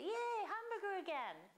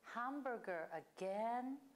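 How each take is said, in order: First: It sounds happy and pleased. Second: It sounds negative and fed up.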